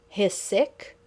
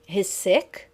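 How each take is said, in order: First: "He's" stressed, rising at the end; rising statement question repeated. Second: "sick" rising like a question; statement question, rising. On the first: Teacher repeats the questioning statement. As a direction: lift it into a question. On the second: Teacher shows a statement that rises like a question. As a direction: say "He's sick" but lift "sick". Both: Shown as a demonstration. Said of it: "that element of a question".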